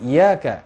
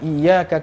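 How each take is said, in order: First: The y sound is short and single. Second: The y sound is held long and doubled. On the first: The sun we worship. The speaker calls it wrong. "menjadi iyyaka kepada mataharilah kami menyembah" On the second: Only You we worship. The speaker calls it right. "Yang harusnya iyyaka kepadamulah kami menyembah"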